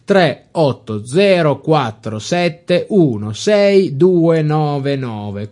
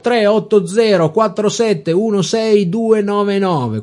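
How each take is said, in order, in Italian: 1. Il numero viene letto lentamente. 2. Il numero viene letto a velocità normale.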